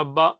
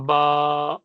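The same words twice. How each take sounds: First: با said short and clipped, vowel closed at once; a quick short با with no stretch; short a in با, closed off fast. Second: با with the vowel drawn out long; long drawn baa, a bit louder. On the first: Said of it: "بس ایک مرتبہ بند کرے". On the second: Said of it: "اتنا اس کو کھینچنا ہے". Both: Shown as a demonstration.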